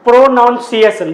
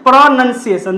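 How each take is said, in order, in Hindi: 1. दूसरा अक्षर 'noun' जैसा सुनाई देता है। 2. दूसरा अक्षर 'nun' जैसा सुनाई देता है। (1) "तो आप पढ़ते होंगे प्रोनाउंसिएशन, but this is not प्रोनाउंसिएशन" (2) "this is प्रोनाउंसिएशन"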